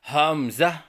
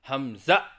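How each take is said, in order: First: The first vowel is drawn out long. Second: It ends with an abrupt glottal stop. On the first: "शुरू की हा को लंबा करके पढ़ना" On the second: "आखिर की हा को हमज़ा से बदल कर पढ़ना"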